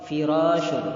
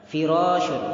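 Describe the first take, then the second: The two takes are said the same way.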